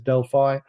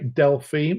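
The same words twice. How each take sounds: First: The word has an American pronunciation. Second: The word has a European pronunciation. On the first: "has an American accent, so he says Delphi" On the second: "I learned to say Delphi"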